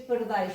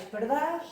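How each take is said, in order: First: Said in the usual way. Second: "pardás" with open a, no glide; monophthong ending. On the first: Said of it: "eh, se monotongaram". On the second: Shown as a demonstration. Teacher showing old local speech, monophthong in "pardás". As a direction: say "pardás", the ai reduced to a. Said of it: "em vez de pardais".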